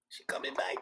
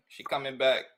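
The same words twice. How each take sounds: First: Hushed whisper, breath only; a soft secretive whisper to the viewers. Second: Said in the usual way. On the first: Real, not acted. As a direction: lean in and whisper it. Host repeats softly to audience.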